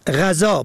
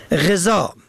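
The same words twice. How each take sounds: First: غذا said ghazâ, short a first; غذا pronounced ghazâ; fatha on first. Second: غذا said ghezâ, short e first; غذا pronounced ghezâ; kasra on first. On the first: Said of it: "به فتح اول". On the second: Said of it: "به کسر اول". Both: Shown as a demonstration.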